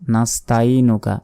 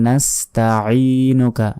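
First: The throat 'ain' sound is dropped. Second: The throat 'ain' sound is clearly audible. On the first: The speaker calls it wrong. "তাইনুকা যদি বলি তাহলে এই আইন অক্ষরটি কিন্তু বাদ চলে গেল" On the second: The speaker calls it right. "আইন ইয়াজের আই একালিফ টান হবে।"

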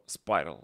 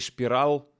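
First: The name begins with an 's' sound. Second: The name begins with an 'sh' sound. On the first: The speaker calls it right. "Спайрал он читается" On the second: The speaker calls it wrong. "Ни Шпирал"

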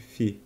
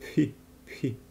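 First: It begins with an f sound. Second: It begins with an aspirated p sound. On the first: "eu sugiro a gente ler como se fosse um F de Fi" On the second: "O mais correto seria lê-lo como Pi"

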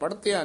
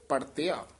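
First: The word is pronounced with a hard, firm articulation. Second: The word is pronounced with a soft, light articulation. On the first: The speaker calls it wrong. "ਪੜਤਿਆ ਨਹੀਂ ਕਹਿਣਾ" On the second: The speaker calls it right. "ਪੋਲਾ ਉਚਾਰਨ ਕਰਨਾ ਹੈ"

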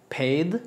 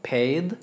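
No difference in how they are said.

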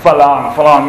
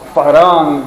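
First: The word is said with an L sound. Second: The word is said with an R sound. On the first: "anything with an R, they use as an L" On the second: "They don't say Farang"

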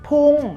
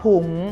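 First: The syllable is said with a falling tone. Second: The syllable is said with a high tone. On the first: "คำว่าพุ่งใช้เป็นรูปเอกก็จริงแต่ออกเสียงเป็นเสียงโท" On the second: "วรรณยุกต์รูปโทจะออกเสียงเป็นเสียงตรี"

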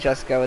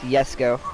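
First: The name begins with a J sound. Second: The name begins with a Y sound. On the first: The speaker calls it wrong. "It's not Jesco" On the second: The speaker calls it right. "it's pronounced Yesco. Like with a Y"

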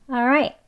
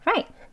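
First: The first syllable is a weak 'uh' sound. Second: The first syllable is almost silent, just air. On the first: "이 리을 소리가 좀 한 단계 더 약해져서 그냥 어처럼도 들려요" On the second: "정말 가장 빠르게 그 공기 소리로 그렇게 발음을 하게 되면"

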